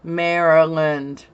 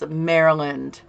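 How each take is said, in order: The two takes are said the same way.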